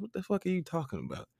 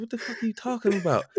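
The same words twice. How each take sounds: First: Raised, disbelieving what-are-you-talking-about; incredulous retort. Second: Exasperated disbelief. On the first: To his grandmother on the phone, incredulous retort. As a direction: toss it back in mock outrage. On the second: Repeating it to grandma, higher exasperated disbelief. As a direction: throw the line up in comic exasperation. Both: Retold or imitated.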